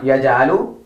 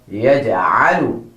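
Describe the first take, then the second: First: "Yaj'alu" with an ordinary A, rising at the end; wrong-way "Yaj'alu", plain vowel for ayn; Yaj'alu mispronounced. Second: "Yaj'alu" with ayn from mid-throat, falling; careful lower-pitched model "Yaj'alu" with a clear ayn; Yaj'alu pronounced correctly. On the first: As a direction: say "Yaj'alu" with the throat sound left out. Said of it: "Not Yaj'alu". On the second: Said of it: "but Yaj'alu". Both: Shown as a demonstration.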